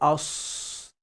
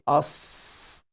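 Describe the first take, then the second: First: The lips round and move during the sound. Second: The lips stay still during the sound. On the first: The speaker calls it wrong. "use the lips or disturb the lips" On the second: The speaker calls it right. "I'm not moving it"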